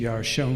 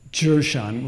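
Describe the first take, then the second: First: The stress is on the last syllable. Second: The stress is on the first syllable. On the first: This is the Hebrew way of saying it. "where the accent is on the last syllable" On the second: This is the English way of saying it. "the accent of the first syllable"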